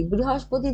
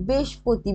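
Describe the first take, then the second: First: Said in the usual way. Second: বৃহস্পতি slurred down to "beshpoti"; colloquial contracted pronunciation. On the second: Shown as a demonstration. Teacher showing how speech changed, বৃহস্পতি shortened to "beshpoti". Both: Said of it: "এই ধরনের কিছু change হয়ে গেছে".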